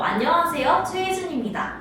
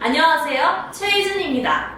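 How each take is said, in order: First: It is said in a plain, casual conversational voice. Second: It is said in a projected, crisp announcer-style voice. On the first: The speaker calls it wrong. "이렇게 말하는 게 아니고" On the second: The speaker calls it right. "이렇게 좀 아나운서들이 말하듯이"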